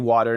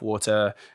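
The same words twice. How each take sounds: First: It is said in an American accent. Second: It is said in a British accent.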